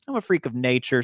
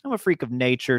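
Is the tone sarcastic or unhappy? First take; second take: sarcastic; sarcastic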